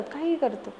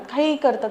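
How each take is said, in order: First: Much softer, trailing off; fading repeat. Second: Said in the usual way. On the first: Real, not acted. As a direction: let the repeat fade away. (हळू आवाजात पुन्हा म्हणणे)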